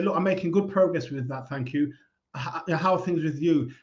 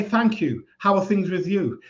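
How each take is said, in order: First: Softer, quiet friendly brush-off; calm polite reply. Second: Light, friendly brush-off answer; calm polite reply. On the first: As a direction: close the topic gently and turn it back. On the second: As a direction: deflect politely and turn it back to them. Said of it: "but just say". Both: Shown as a demonstration.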